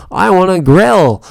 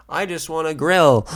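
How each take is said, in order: First: A loud, high, slow shout; exasperated shout. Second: Louder, higher exasperated cry; exasperated outburst. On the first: Pleading with the clerk to let him grill, slow loud shout. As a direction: bellow the plea, stretched out. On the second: Pleading with the clerk to just let him buy, loud exasperated cry. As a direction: whine it out, getting loud. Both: Retold or imitated. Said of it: "And I'm just like".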